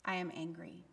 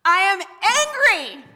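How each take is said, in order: First: Low, very soft, restrained statement; softly angry. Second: Loud, high, full-force angry cry; whole-body anger. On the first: Preacher showing congregation a gentle anger, quiet and low. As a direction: say it small and contained, almost under your breath. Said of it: "Does it help if I say". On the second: Preacher showing congregation women's anger, shouted furiously. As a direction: let it burst out with your whole body. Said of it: "say it with my whole body". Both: Shown as a demonstration.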